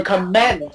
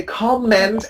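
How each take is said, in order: First: Comment mis-stressed as com-MENT; the mistake, com-MENT; wrongly stressed second syllable. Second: Comment stressed as COM-ment; stress on first syllable. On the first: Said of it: "and never comment". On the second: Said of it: "Please always say comment". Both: Shown as a demonstration.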